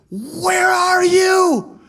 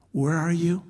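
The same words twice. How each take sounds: First: Much higher, loud, slow anguished shout; David crying out. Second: Said in the usual way. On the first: Acted. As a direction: shout it to the sky in despair. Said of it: "You look at David". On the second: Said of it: "what David would always get to".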